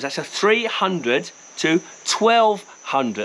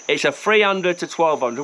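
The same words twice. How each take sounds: First: Slowly spelling out the numbers; slow and deliberate. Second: Said in the usual way. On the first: Shown as a demonstration. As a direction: give each number its own weight, slowly. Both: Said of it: "I'm gonna put this lens in thirty-five mil terms".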